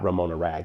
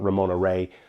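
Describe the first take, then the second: First: The surname ends with a hard g sound. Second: The surname ends on an open vowel sound. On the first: The speaker calls it wrong. "I just mispronounced her name" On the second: The speaker calls it right. "It's Ramona Ray"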